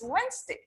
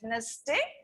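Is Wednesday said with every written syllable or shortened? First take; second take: shortened; every syllable. First: The word is shortened, skipping a written sound. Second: Every written syllable is pronounced separately. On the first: The speaker calls it right. "it's Wednesday" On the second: The speaker calls it wrong. "It's not called Wednesday"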